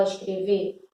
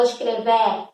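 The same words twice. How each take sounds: First: "escrever" ending in a closed Ê, like escrevê; lower, close the last E of "escrever"; closed final vowel. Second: "escrever" wrongly ending in an open È, like escrevé; open final vowel. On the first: Teacher showing how you really say it, closed-vowel ending. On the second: Teacher showing what you don't say, open-vowel ending. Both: Shown as a demonstration. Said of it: "um acento que fecha a vogal".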